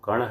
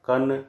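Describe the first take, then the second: First: The final nasal is retroflex, like ण. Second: The final nasal is dental, like न. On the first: The speaker calls it right. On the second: The speaker calls it wrong.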